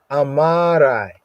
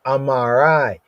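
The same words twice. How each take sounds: First: Amarai stretched out slowly, each syllable leaned on; teacher drawing out Amarai so students catch it; slow, emphatic Amarai. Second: Said in the usual way. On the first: Shown as a demonstration. Teacher repeating the Hebrew word for the class, slow and emphatic. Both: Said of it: "Really, really here".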